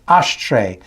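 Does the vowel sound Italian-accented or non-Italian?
Italian. The vowel sounds Italian-accented, like Penelope.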